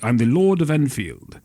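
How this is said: It is said in a grand aristocratic voice.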